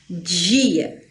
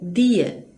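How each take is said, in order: First: The d is softened into a dj sound. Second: The d is a plain, hard d sound. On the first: This is how most people in Brazil say it. "Eu sou capixaba, eu falo dia, que ó, dia, já tem um J aqui" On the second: This is how people in the Northeast say it. "pode ser pronunciada assim, normal, né? Dia, igual os nordestinos falam"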